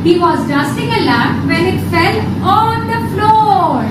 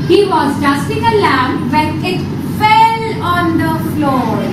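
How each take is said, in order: First: The word floor carries the main stress. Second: The word fell carries the main stress. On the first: "and last on floor" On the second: "then on fell"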